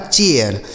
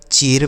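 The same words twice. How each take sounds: First: चेयर said as "che-yar", e gliding into a before r; correct air glide. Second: चेर said as "cher", one long e straight into r; wrong ai reading. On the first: Teacher models the right reading, चेयर as gliding "che-yar". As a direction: open the e of चेयर into "eya" before the r. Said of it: "ए आई का उच्चारण एय". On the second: Teacher shows class the misreading, चेर as one-syllable "cher". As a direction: read चेर with a plain long e, no glide. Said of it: "क्या हम इसे ऐसे ही पढ़ेंगे". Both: Shown as a demonstration.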